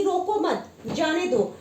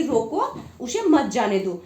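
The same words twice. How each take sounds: First: रोको मत as one group, then जाने दो; slow, with a break between मत and जाने; pause after मत. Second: रोको set apart, then उसे मत जाने दो; pause after रोको. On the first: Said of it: "इसका सीधा अर्थ हो जाता है". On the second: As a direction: comma break between रोको and उसे. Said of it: "चिन्ह को यहाँ बदल देते हैं". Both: Shown as a demonstration.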